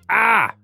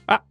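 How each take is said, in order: First: It is said at normal speed. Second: It is said very quickly.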